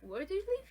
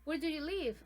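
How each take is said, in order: First: It has the intonation of a repeated question. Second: It has the intonation of a fresh question. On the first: The speaker did not understand or has forgotten the answer. "it can sound like as the second time, like I didn't understand" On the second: The question is being asked for the first time. "as a first question, first time question"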